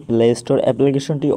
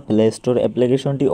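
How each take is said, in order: Both takes have the same delivery.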